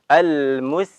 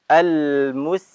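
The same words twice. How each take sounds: Both takes have the same delivery.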